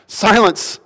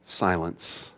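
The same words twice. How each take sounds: First: High, firm parental command; parent scolding child. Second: Low, hushed, composed order; very calm, quiet command. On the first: Speaking to a hurricane like an unruly child, firm parental command. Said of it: "parent would speak to an unruly child". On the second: Jesus stands up and speaks to the storm, calm quiet command. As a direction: command it softly, with total calm. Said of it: "very calmly and very quietly says". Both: Acted.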